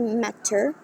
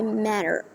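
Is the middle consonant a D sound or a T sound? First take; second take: T sound; D sound. First: The middle consonant is a clear T. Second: The middle consonant sounds like a D. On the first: The speaker calls it wrong. "we're not gonna say matter" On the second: The speaker calls it right. "we're gonna say matter"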